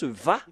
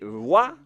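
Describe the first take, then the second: First: The syllable begins with a buzzing V sound. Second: The syllable begins with a rounded W sound. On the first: The speaker calls it right. "la bonne prononciation, c'est Va" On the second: The speaker calls it wrong. "Est-ce que c'est Wa la prononciation, comme euh, avec les Anglais"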